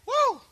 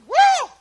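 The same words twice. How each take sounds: First: It is a fairly mild shout. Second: It is a stronger, louder shout.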